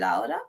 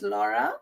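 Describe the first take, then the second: First: The name is pronounced the Spanish way. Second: The name is pronounced the English way. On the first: "but in Spanish you say Laura" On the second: "your middle name is Laura"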